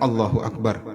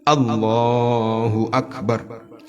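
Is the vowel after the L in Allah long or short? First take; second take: short; long. First: The vowel after the L is short. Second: The vowel after the L is long. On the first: The speaker calls it wrong. "Bukan Allahu Akbar begitu" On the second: The speaker calls it right. "Tapi panjang"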